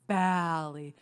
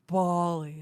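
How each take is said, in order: First: Bali with the short A of cat, drawn out; the rejected Bali, stretched BAAL-ee; Bali as BAL-ee. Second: Bali with an open AH, drawn out; mock-correcting Bali as a long BAH-lee. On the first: Retold or imitated. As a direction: say Bali to rhyme with alley, slowly. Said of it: "it's not Bali". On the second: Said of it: "everyone who's like".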